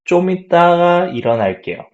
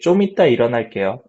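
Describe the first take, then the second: First: The syllable ga is said after itda. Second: The syllable ga is left out after itda. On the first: "like 좀 있다가 일어날게요" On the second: "drop 가 and say 좀 있다 일어날게요"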